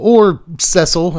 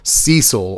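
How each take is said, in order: First: The name is said the British way. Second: The name is said the American way. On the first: "as people have told me to pronounce it. I think it's a U K U S thing" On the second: "I am from the United States of America"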